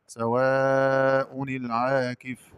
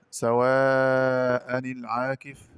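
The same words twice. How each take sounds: First: سواء العاكف recited "sawaa-u-nil", long held aa; slow recital of سواء العاكف with a u-ending; hamza with damma. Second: سواء العاكف recited "sawaa-a-nil", long held aa; slow recital of سواء العاكف with an a-ending; hamza with fatha. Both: Shown as a demonstration. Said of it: "قرأ برفع الهمزة".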